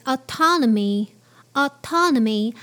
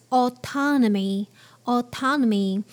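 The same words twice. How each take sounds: First: "autonomy" with an American open ah start; American English. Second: "autonomy" with a British rounded aw start; British English. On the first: Teacher modelling American English autonomy. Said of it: "in American English". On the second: Teacher modelling British English autonomy. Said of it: "but in British English". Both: Shown as a demonstration.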